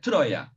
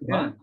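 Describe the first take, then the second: First: The name is said as Troya. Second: The name is said as Truva. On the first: This is how the name appears in cuneiform texts. The speaker calls it right. "çivi yazılı metinlerde Troya diye geçiyor" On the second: This is the French way of saying the name. The speaker calls it wrong. "o tabii Fransızların e, söyleyiş biçimi"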